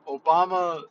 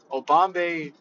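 First: Said in the usual way. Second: "Obambe" with the end turned into "bay"; joking name mispronunciation. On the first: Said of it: "I say Obama". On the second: Retold or imitated. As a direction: say "Obambe", ending like the word "bay". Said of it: "jokes around and says Obambe, like Bay".

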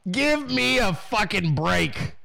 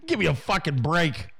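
First: Drawn-out, exasperated repeat; slow emphasis. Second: Said in the usual way. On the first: Real, not acted. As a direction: stretch each word out slowly in exasperation. Same phrase repeated slower for emphasis.

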